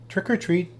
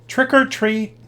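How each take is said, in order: First: It is said very softly. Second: It is said a little louder.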